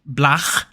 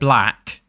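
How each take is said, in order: First: The word ends in a throaty rasping sound. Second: The word ends in a hard k sound. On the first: "it sounds like blach"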